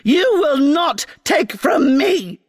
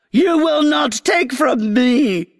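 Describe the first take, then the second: First: Screeching queen. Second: Shrieking queen, a touch higher; screeching queen. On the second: Grass queen screeching at the girl she is whipping. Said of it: "screeched the queen". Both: Acted.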